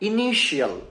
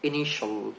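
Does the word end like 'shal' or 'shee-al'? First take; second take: shee-al; shal. First: The ending is said as 'shee-al'. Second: The ending is said as short 'shal'. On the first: The speaker calls it wrong. "আমরা এটাকে ভুল উচ্চারণ করি এইভাবে যে ইনিশিয়াল" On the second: The speaker calls it right. "আজকে থেকে আমরা এটাকে উচ্চারণ করব ইনিশিয়াল"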